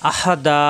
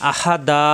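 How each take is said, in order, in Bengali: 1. শব্দটি টেনে উচ্চারিত দীর্ঘ স্বরে শেষ হয়। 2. শব্দটি টেনে উচ্চারিত দীর্ঘ স্বরে শেষ হয়।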